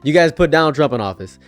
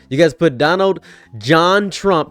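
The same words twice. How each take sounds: First: Said in the usual way. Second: Slow, with "John" drawn out and weighted; stress on John. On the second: Shown as a demonstration. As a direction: lean hard on "John" as the middle name. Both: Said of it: "That's his middle name".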